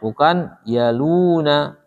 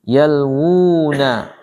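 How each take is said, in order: First: No w sound follows the l. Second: A clear w sound follows the l. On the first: The speaker calls it wrong. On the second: The speaker calls it right. "tapi yalwu"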